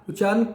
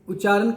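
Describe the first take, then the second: The two takes are said the same way.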